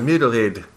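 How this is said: It is said in a New Zealand accent.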